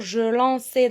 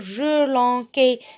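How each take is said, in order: First: The middle consonant is a soft S sound. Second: The middle consonant is a hard K sound. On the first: The speaker calls it right. "Je dois dire" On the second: The speaker calls it wrong. "le C devant A, ça se prononce K. Et donc, je vais dire"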